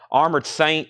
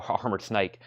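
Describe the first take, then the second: First: Said in the usual way. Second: "Armored Snake" said softly through a chuckle; laughing. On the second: Shown as a demonstration. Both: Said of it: "a word like Armored Snake".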